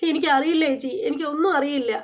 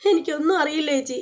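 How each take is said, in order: First: Said in the usual way. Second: Mock little child. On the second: Narrator mimics Nandu telling her sister, mild childish whimper. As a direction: echo her like a pitiful tiny kid, half teasing. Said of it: "പാവം പൊടി കൊച്ച്".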